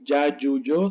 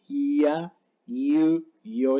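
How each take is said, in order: First: The y sound is hard and strong. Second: The y sound is soft, like an i. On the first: The speaker calls it wrong. "No se lee ya, yu, yo" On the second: The speaker calls it right. "sino ya, yu, yo. Es suave, muy suave"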